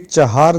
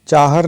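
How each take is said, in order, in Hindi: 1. दूसरे अक्षर में दीर्घ स्वर है। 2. दूसरे अक्षर में ह्रस्व स्वर है। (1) "बल्कि चाहार दीवारी होता है" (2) "चाहर नहीं"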